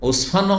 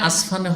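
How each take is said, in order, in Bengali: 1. প্রথম স্বরধ্বনিটি 'o' বা 'u' এর মতো শোনায়। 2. প্রথম স্বরধ্বনিটি 'a' এর মতো শোনায়। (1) "ইউ দিয়ে ইউও হয়" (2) "আর আও হয়"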